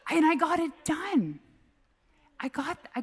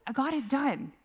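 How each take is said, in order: First: Laughing. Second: Said in the usual way. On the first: Real, not acted. Laughing after dad story.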